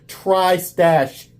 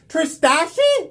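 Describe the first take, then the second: First: The name ends on the syllable 'stash'. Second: The name ends with an extra 'ee' syllable. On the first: The speaker calls it right. "he made sure that I pronounced it correctly" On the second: The speaker calls it wrong. "clearly would have said it wrong"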